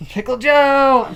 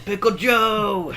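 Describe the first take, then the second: First: High, slow yell; shouted. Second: High drawn-out call; shouted. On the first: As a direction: belt out the name. Shouted character bit. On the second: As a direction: call the name out slowly. Echoing the shouted bit. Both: Pretend.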